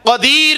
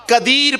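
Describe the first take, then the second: First: Slow, exact قدیر with q, never k; correct qaf. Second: قدیر opened with a plain front k; slow قدیر mispronounced with an ordinary k; wrong k sound. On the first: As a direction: say قدیر carefully with a true Arabic qaf. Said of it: "قدیر پڑھا جو صحیح طریقہ ہے". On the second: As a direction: say قدیر wrongly, with k in place of qaf. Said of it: "قدیر نہیں پڑھا". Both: Shown as a demonstration.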